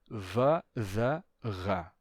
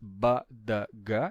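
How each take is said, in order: First: The consonants are fricatives with audible friction. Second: The consonants are stops with full closure. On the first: "e sim va, da, ra" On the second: "Então não é mais ba, da, ga"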